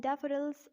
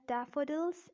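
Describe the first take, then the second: First: American "daffodils" with a tapped D; American-accent demo of daffodils. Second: British "daffodils" with a clear D; British-accent demo of daffodils. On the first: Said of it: "in American accent". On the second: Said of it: "in British accent". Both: Shown as a demonstration.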